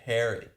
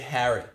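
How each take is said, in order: First: It is said with an American-sounding vowel. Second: It is said with a British-sounding vowel. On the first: This is how the speaker does not say it. "I don't say Harry" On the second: This is how the speaker says it. "but I say Harry"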